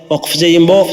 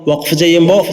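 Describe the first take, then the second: The two takes are said the same way.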